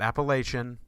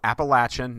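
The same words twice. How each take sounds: First: The name is said the way outsiders say it. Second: The name is said the way locals say it. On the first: The speaker calls it wrong. "not Appalachian" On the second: The speaker calls it right. "We lived there. We say it right"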